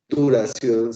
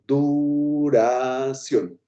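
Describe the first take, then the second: First: The syllables are run together quickly. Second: The syllables are spaced apart slowly.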